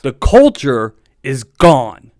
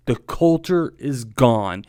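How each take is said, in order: First: Slow and loud, leaning on culture; drawn-out loud declaration of loss; emphatic declaration. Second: Said in the usual way. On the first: Real, not acted. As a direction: hammer it home, word by word. Opening rant about the team.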